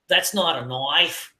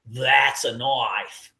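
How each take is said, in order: First: Australian line with stress on "not", from Crocodile Dundee; "That's not a knife" in a slow Aussie voice; Australian accent. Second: Slow, low Australian line that lands on "knife"; "That's a knife" drawn out Aussie style; Australian accent. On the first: Quoting Crocodile Dundee in an Australian accent. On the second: Topping the first line as Crocodile Dundee, Australian accent. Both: Retold or imitated. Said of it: "I just think of Crocodile Dundee".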